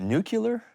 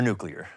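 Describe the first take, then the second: First: "nuclear" said as NOO-kyuh-ler, rising; "nuclear" with the last syllables swapped to -kyuh-ler; nucular pronunciation. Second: "nuclear" said as NOO-klee-er; "nuclear" ending in klee-er, not kyuh-ler; standard nuclear pronunciation. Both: Shown as a demonstration. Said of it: "how do we actually say it?".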